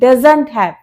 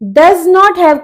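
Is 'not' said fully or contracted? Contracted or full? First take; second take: contracted; full. First: Not is reduced and joined onto does. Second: Not is said as a full separate word.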